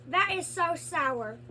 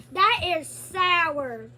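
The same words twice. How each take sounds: First: Said in the usual way. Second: Slow and loud; slow amazed sour reaction. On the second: Real, not acted. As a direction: draw it out, shocked by the sourness. Puckering at sour candy.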